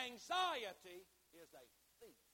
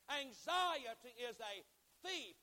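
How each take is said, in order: First: "Anxiety" said slowly and firmly, "thief" dropping away; slow, clear emphasis. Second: Slow, loud preaching with a high punch on "thief"; loud and clear. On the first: Preacher gives congregation the key line, "Anxiety" slow and clear, "thief" falling away. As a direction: set out "Anxiety is a thief" deliberately, easing off at the end. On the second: Preacher repeats the key line to congregation, loud and clear. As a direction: proclaim it, pausing before a raised "thief". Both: Real, not acted. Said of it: "say this loud and clear".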